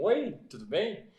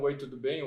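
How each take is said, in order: First: OI stretched slowly with a lifted tune; expressive intonation. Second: Said in the usual way. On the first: Shown as a demonstration. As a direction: greet with a higher, drawn-out lilt. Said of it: "Tem diferença de entonação de voz". (saudação cantada, mais aguda e alongada) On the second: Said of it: "existe entonação de voz".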